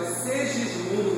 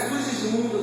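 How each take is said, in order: First: The first vowel sounds like 'e'. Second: The first vowel sounds like 'u'. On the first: The speaker calls it right. "é Segismundo mesmo" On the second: The speaker calls it wrong. "não é Sugismundo"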